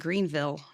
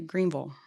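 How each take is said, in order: First: The ending is said with a clear 'ville' sound. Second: The ending is said with a reduced 'vol' sound. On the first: The speaker calls it wrong. "you don't say Greenville" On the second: The speaker calls it right. "you say Greenville"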